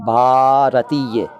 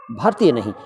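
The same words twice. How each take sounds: First: भारतीय spelled out slowly, bha-ra-tee-ya; correct pronunciation, slow. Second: भारतीय said as the clipped "bhartiye", the mistake; wrong pronunciation. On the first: Voice teacher slowly models the correct भारतीय. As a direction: stretch भारतीय syllable by syllable. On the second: Voice teacher shows radio people the wrong भारतीय. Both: Shown as a demonstration.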